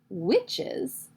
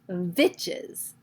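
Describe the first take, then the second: First: The word begins with a W sound. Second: The word begins with a V sound. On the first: "when she says the word witches" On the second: "she says it with a V, and it sounds like vitches"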